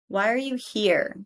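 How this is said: The pitch falls at the end. The speaker calls it right.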